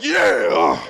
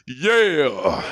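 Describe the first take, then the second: First: It is said much louder, almost shouted. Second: It is said at a normal, quieter volume.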